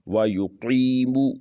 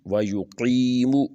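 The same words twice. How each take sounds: Both takes have the same delivery.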